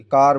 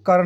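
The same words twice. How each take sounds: First: कार with a long "aa"; कार, long open vowel; correct pronunciation demo. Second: कर with a short "a" vowel; कर, vowel kept short like "kur"; wrong pronunciation demo. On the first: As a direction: model car as कार, vowel held open. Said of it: "कार बोलेंगे". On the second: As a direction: misread car as a short कर. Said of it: "हम इसके लिए कर नहीं बोलेंगे". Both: Shown as a demonstration.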